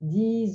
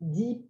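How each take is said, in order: First: The final consonant is heard. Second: The final consonant is dropped.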